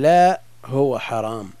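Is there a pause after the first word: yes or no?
yes. There is a pause after the first word. The thing is forbidden. The speaker calls it right.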